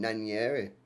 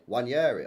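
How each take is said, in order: First: The name begins with a sounded N. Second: The name begins without the N sound. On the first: The speaker calls it wrong. "I've been calling him like Nan- Nanieri" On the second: The speaker calls it right. "it's a silent N"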